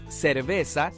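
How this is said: It is said with a Latin American s sound.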